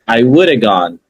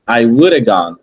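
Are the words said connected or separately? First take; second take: connected; connected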